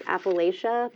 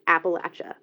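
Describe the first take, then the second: First: The word is said the standard way. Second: The word is said the Southern way. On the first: "the proper pronunciation is Appalachia" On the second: "since they're Southern, it's Appalachia"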